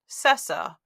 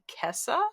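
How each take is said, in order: First: The word begins with an s sound. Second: The word begins with a k sound. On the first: This is how an English reader would say it. "if we were speaking this in English, we would pronounce that Cessa" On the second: This is another way an English reader might say it. "maybe Kessa"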